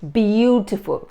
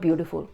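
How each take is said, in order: First: Every syllable is articulated with wide jaw movement. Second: The word is mumbled with little jaw movement. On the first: The speaker calls it right. "Enhance them more than usual" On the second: The speaker calls it wrong. "Not beautiful"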